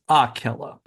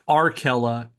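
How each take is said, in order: First: No r sound follows the first vowel. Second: An r sound follows the first vowel. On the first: The speaker calls it right. "it's Akela" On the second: The speaker calls it wrong. "It's not Arkela"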